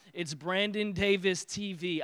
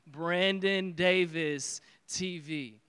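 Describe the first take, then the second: First: It is said at normal speed. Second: It is said slowly.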